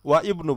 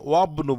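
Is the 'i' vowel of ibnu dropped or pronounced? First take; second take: pronounced; dropped. First: The 'i' vowel is pronounced as a separate syllable. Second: The words run together without the 'i' vowel. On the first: The speaker calls it wrong. "ওয়া ইবনু বলবেন না" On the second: The speaker calls it right. "ওয়াবনু বলবেন"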